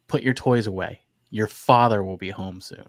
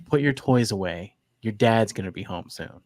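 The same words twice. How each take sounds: First: Father said with stern weight. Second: Said in the usual way. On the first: Shown as a demonstration. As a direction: put a little fear into father. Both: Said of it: "listen to this sentence".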